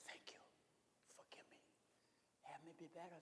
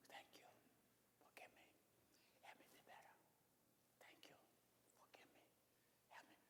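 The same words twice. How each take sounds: First: Barely audible, breathed prayer; hushed prayer. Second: Breathy whisper, fading to nothing; whispered prayer. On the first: Preacher showing a sighed night prayer, very soft. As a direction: sigh the words out at three in the morning. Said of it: "You can sigh it at night". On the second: Preacher demonstrating the whispered prayer, whispering. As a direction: whisper it like a secret to God. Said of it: "You can whisper it". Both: Shown as a demonstration.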